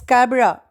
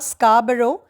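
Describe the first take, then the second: First: The ending is reduced to a short uh. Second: The ending is pronounced fully, not reduced. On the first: The speaker calls it right. "but it's Scabra, U H" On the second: The speaker calls it wrong. "it's not Scarborough"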